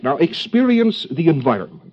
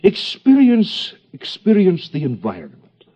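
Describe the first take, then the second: First: Said in the usual way. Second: Hammed-up German analyst accent, the first word slow and high; mock German accent. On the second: Lecturer parodies a psychoanalyst instructing a patient, mock German accent. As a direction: drag out the first "Experience" in a German accent, then drop back into the accent. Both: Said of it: "the proper accent of psychoanalysis".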